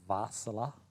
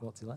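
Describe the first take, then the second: First: It begins with a V sound. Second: It begins with a W sound.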